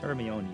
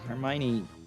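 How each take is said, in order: First: The name is said in the original Greek style. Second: The name is said in the popular film style. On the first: This is the original form of the name. The speaker calls it right. "It's Hermione. It's Greek" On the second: This is the widely known but incorrect form. The speaker calls it wrong. "Hermione's not how the name's pronounced. The Harry Potter films have changed everyone's perception"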